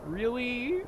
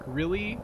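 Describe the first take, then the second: First: High, drawn-out rising question; whiny disbelief. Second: Short rising question of disbelief; mild disbelief, tipping up at the end; mildly incredulous. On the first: Player dreading the walk back, high incredulous whine. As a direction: stretch it upward in pained disbelief. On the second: Player balking at having to walk back, mildly incredulous. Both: Real, not acted.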